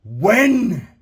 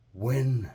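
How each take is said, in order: First: Louder win, pitched up and ringing; God calls out with force; loud, lifted win; ringing command. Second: Low, soft single word; God whispers the call gently; quiet, low win; soft command. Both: Acted. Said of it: "And God said".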